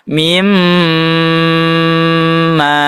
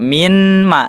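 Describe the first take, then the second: First: The n sound merges into the following m. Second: The n sound is kept separate before m. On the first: The speaker calls it right. "langsung dimasukkan ke huruf selanjutnya" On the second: The speaker calls it wrong. "Tidak dibaca min ma"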